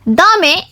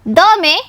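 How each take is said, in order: The two takes are said the same way.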